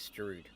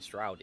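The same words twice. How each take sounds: First: The vowel is said without a U sound. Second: The vowel is said with a U sound. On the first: The speaker calls it right. "it's Stroud" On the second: The speaker calls it wrong. "I keep saying Stroud, ... You keep pronouncing it with a U"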